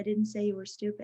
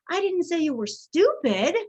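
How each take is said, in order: First: It is flat, with no word stressed. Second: The stress falls on the word stupid. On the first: The intended meaning is unclear. "When they're monotone" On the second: A different insult was used. "I said you were something else"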